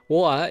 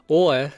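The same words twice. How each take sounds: Both takes have the same delivery.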